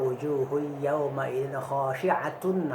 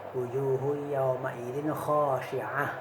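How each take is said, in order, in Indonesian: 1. Kata terakhir berakhir dengan 't' dan 'un'. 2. Kata terakhir berakhir dengan bunyi 'h' yang lembut. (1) "bila bawasal" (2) "bilanya mawaqaf jadi hak"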